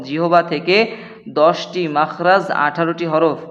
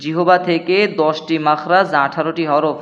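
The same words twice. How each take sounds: The two takes are said the same way.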